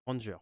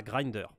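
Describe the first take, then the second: First: Granger said in French, with a nasal "gran" and a "-jé" ending; corrected name. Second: Grinder said with an English i and a "-der" ending, the wrong way; mispronounced name. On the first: Apologising to viewers for his accent, corrects the name to Granger. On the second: Explaining a game recipe to viewers, says Grinder by mistake. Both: Real, not acted. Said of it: "désolé, hein, pour mon accent".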